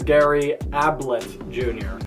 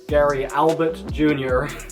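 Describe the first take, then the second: First: The surname is said like 'Ablett'. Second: The surname is said like 'Albert'. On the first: The speaker calls it right. "it is" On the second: The speaker calls it wrong. "I said his name wrong. So, it is not"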